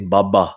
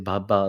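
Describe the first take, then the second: First: It is said with a hard, forceful sound. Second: It is said with a soft, gentle sound.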